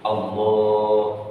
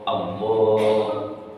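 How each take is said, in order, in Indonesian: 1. Vokal pertama tetap pendek. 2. Vokal pertama tetap pendek.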